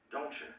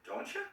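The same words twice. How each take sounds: First: "Don't you?" settling down at the end; firm, sure "Don't you?" falling; falling intonation. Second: "Don't you?" leaping high on "you"; rising intonation. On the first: Teacher contrasting tags, confirming with falling intonation. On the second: Teacher contrasting tags, asking with rising intonation. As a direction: ask "Don't you?" with a big upward swoop. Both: Shown as a demonstration.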